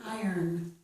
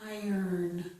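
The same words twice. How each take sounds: No difference in how they are said.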